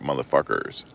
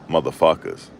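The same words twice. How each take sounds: First: The word ends with a clear 'er' sound. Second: The word ends with an 'uz' sound. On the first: "He said motherfuckers with an E R, like that" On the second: "Not motherfuckers, you know, with an A S"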